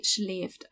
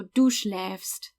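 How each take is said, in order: First: Schläft said with a closed ay-like vowel; the regional way, vowel closed toward ee; dialect variant. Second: Schläfst said slowly with an open eh-like ä; slow, deliberate schläfst with open ä; careful ä demo. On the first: Teacher showing her own dialect pronunciation, relaxed. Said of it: "a lot of people say schläft". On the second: Teacher modelling the verb for learners, slow and careful. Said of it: "It's pronounced ä". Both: Shown as a demonstration.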